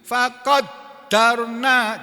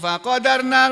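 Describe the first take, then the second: First: The d sound is doubled and held longer. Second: The d sound is short, not doubled. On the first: "jadi dalnya ditasdid" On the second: "Kalau ini kan enggak"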